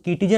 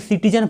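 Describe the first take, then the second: First: The word begins with a k sound. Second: The word begins with an s sound. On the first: The speaker calls it wrong. "इसको हम किटीजन नहीं पढ़ रहे हैं" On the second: The speaker calls it right. "इसलिए हम इसको सिटीजन पढ़ रहे हैं"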